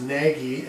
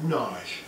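First: Nagy said like NAG-ee; Nagy read letter by letter, NAG plus EE; Nagy as spelled. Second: Nagy said like NAHZH; Nagy with a silent y, rhyming with "garage"; Hungarian pronunciation of Nagy. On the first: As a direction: say Nagy as two syllables, hard g, as in "naggy". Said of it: "it looks like it's pronounced". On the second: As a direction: say Nagy as one syllable, long ah, soft zh ending. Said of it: "no, it's pronounced Nagy". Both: Shown as a demonstration.

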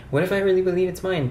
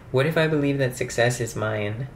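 First: Rushed and higher, "mine" still nasal; quick retake. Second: "mine" said with a nasal, regional vowel; odd mine. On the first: Vlogger rushing another take of her affirmation, fast and high. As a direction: blurt it out fast and bright. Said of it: "Um, okay". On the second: Vlogger testing her affirmation, "mine" with an odd nasal vowel. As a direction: let "mine" slide nasal and a little off. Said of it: "No matter what, I say it like that". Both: Shown as a demonstration.

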